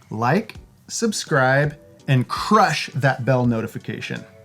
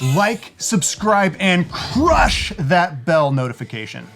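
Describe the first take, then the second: First: It is said in a calm, plain way. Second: It is said with exaggerated, high enthusiasm.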